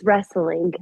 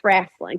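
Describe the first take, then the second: First: It is said in the standard pronunciation. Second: It is said in a local slang pronunciation. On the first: "Yes, it is wrestling. I know how to say it correctly" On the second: "we do a little slang and it's wrestling"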